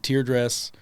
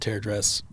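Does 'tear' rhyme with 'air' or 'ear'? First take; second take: ear; air. First: The word tear rhymes with ear. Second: The word tear rhymes with air. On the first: Tears from crying, as in the Trail of Tears. The speaker calls it wrong. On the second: A dress that is torn, not cut. The speaker calls it right.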